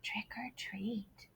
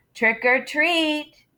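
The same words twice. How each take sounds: First: Slow, breathy whispered trick or treat; very soft whisper. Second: Slow, somewhat higher and louder; louder trick or treat; a little louder. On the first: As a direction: barely say it. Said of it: "so he very softly said". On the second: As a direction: say it up a notch. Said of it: "He said it a little louder". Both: Acted.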